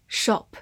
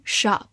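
First: Said in the usual way. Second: "shop" with an open American "ah" vowel; American pronunciation. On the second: Shown as a demonstration. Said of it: "美式发音". (美式发音 shop，元音读开口的 ah)

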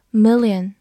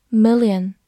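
Both takes have the same delivery.

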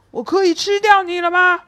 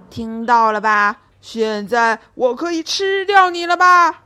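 First: Higher, louder, gloating lion; lion gloats to Minus he can eat him now, smug. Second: Lion turns on Minus, fierce and loud. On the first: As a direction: savour asking if he may eat 我可以吃掉你了吗 at last. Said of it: "狮子得意地对米努斯说". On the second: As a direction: threaten 现在我可以吃掉你了吧 fiercely. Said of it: "凶狠地说道". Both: Acted.

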